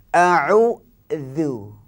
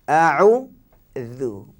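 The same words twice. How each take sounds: No difference in how they are said.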